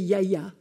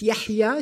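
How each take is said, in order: First: The middle h sound is dropped entirely. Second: The middle h sound is clearly pronounced. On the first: The speaker calls it wrong. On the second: The speaker calls it right.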